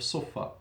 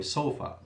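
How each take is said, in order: First: Sofa said like Arabic suffa, short first vowel; Arabic pronunciation slip. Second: Said in the usual way. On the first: Real, not acted. Teacher slipping into the Arabic root, sofa said as suffa. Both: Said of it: "or, sorry".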